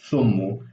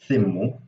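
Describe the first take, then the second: First: It starts with th and has an u vowel. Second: It starts with th and has an i vowel. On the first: "the father says uh" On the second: "the mother says thimmu"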